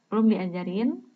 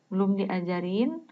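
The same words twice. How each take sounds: No difference in how they are said.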